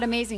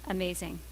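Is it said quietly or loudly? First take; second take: loudly; quietly. First: It is yelled loudly with energy. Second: It is said quietly and limply.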